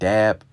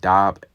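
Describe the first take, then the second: First: It is said with an English-style pronunciation. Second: It is said with a Hebrew-style pronunciation. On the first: The speaker calls it wrong. "that's how we say it in English... a country way to say it" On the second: The speaker calls it right. "the correct way would be dab"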